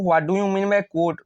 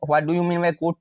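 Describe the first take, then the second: First: Slow exam-question reading. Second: Said in the usual way. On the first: Shown as a demonstration. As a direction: read the question very slowly, word by word. Slow reading, then repeated plainly.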